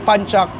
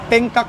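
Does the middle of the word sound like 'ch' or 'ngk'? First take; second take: ch; ngk. First: The middle sounds like 'ch'. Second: The middle sounds like 'ngk'. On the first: The speaker calls it right. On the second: The speaker calls it wrong. "sa Pilipinas kasi wrong pronunciation eh"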